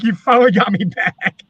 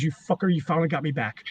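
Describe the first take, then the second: First: Said in the usual way. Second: Low, quiet retold grumble; grudging aside under the breath; muttering under his breath. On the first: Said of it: "He's like". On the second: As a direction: mutter it softly, as if not meant to be heard. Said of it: "he mutters under his breath".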